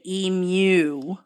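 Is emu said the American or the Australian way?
Australian. Emu is said the Australian way. "Aussies say emu"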